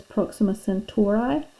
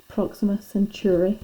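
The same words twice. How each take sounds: First: "Centauri" ending in an "eye" sound; "Centauri" with a long i at the end; speaker's usual pronunciation. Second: "Centauri" ending in an "ee" sound; "Centauri" with a final ee; other people's pronunciation. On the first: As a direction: say "Centauri" as sen-TOR-eye. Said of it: "I've always pronounced this". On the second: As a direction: say "Centauri" as sen-TOOR-ee. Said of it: "other people pronounce it". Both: Shown as a demonstration.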